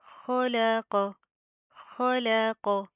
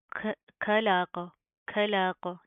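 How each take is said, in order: First: खलाक slow with throaty, rounded "kho" and "qo"; full-mouthed throaty ख in a slowly chanted खलाक; heavy Arabic kho. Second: खलाक with an aspirated Urdu kh and open a; wrong flat kha. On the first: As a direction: recite खलाक drawn out, thick first and last sounds, thin laam. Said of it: "खो होता है". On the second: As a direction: start खलाक with a thin k-plus-breath, not the throaty sound. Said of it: "खा नहीं पढ़ना". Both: Shown as a demonstration.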